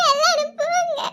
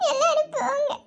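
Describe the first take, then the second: First: Sobbing dismissal. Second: Crying out. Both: Acted. Sister crying, sending everyone away.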